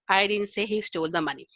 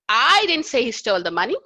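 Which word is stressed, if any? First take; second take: none; I. First: No word is given special stress. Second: The stress is on the word I.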